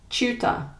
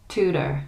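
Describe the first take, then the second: First: British "Tutor" with ch and no final r; higher, "Tutor" starting like "chew"; British pronunciation. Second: American "tutor" with plain t and final r; American pronunciation. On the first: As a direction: say "Tutor" as CHOO-tuh. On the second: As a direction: say "tutor" as TOO-der. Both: Shown as a demonstration. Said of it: "next to each other to hear the difference".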